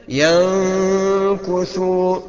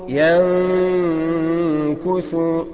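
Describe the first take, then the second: The two takes are said the same way.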